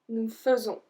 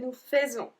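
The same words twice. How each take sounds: First: The first vowel of faisons is an E sound. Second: The first vowel of faisons is an AI sound. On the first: The speaker calls it right. "the sound A I with nous is going to be E" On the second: The speaker calls it wrong. "We don't say nous faisons"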